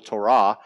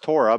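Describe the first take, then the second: First: The stress is on the last syllable. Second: The stress is on the first syllable. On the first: "in Hebrew, the emphasis is on the last syllable" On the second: "Maybe you've heard it pronounced Torah"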